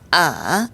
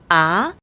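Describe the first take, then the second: First: The pitch drops very low, then barely rises. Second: The pitch rises quickly from low to high. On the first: "가장 낮은 음까지 내려갔다가 살짝 올릴락 말락" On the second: "낮은 음에서 높은 음으로 단숨에 확 끌어당기듯"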